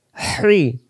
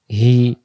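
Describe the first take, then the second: First: Whooshing squeezed h in "হ্রি", no r; hissing throaty hi. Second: Open, easy "হি"; "হি" without throat friction; plain hi. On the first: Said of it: "শো শো আওয়াজে". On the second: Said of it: "এমন করে পড়ার জন্য". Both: Shown as a demonstration.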